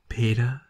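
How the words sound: It is said in a husky female voice.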